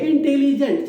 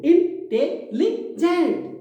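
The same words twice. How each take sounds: First: Said in the usual way. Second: intelligent very slowly in four beats, इन-टे-लि-जेंट; syllable by syllable. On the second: Shown as a demonstration. Teacher counting four parts of a word for students, syllable by syllable. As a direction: chop intelligent into high, drawn-out separate syllables. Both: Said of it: "चार बार हो गया".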